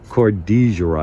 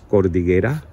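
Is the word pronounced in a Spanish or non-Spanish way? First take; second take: non-Spanish; Spanish. First: The word is said without Spanish pronunciation. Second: The word is said with Spanish pronunciation. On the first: This is how someone else said to pronounce it. The speaker calls it right. "It's cordillera, I think" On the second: This is how a Spanish speaker would read it. The speaker calls it wrong. "I speak Spanish. So when I saw it, I thought it was cordillera"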